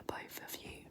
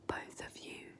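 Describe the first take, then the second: No difference in how they are said.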